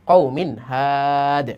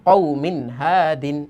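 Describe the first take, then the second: First: The last word ends abruptly on the consonant. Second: The last word ends with its full nunation. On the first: The reading stops at this word. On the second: The reading continues without stopping.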